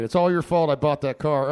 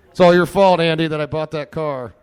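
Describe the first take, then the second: First: Louder playful accusation; repeating the playful blame; mock blame again. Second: Loud, high mock blame; shouting playful blame at Andy; mock accusing shout. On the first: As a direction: call it out again across the room. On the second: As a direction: yell the blame at your friend. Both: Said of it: "He doesn't hear me".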